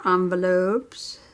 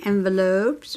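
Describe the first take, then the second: First: "envelopes" starting with ON, French-style first vowel; "envelopes" with an open AH in the first syllable; ON-velopes pronunciation. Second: "envelopes" starting with EN, as in pen; "envelopes" pronounced EN-veh-lopes; EN-velopes pronunciation. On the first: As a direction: say "envelopes" as ON-veh-lopes. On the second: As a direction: say "envelopes" with a short E first. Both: Shown as a demonstration. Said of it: "Do you say envelopes or envelopes?".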